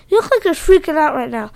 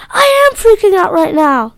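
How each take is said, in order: First: Said in the usual way. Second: High, loud panicked shout; scream. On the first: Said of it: "Ray said". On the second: Acted. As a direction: yell it in panic. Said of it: "Joey screamed".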